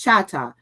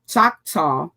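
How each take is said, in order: First: The name is said as Chata. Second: The name is said as Choctaw. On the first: "but it's Chata" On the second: "That's the the the English pronunciation"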